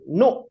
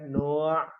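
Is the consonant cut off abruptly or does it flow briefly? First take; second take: abrupt; flowing. First: The sound stops abruptly and is held. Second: The sound flows on briefly before ending. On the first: The letter is a hamzah. "jadi dibacanya ditahan" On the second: The letter is an ain. "ngalir dikit ya"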